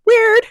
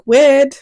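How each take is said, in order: First: Weird squeaked up very high and a bit louder; squeaky weird. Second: Said in the usual way. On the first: Retold or imitated. Repeating weird, second time squeaked.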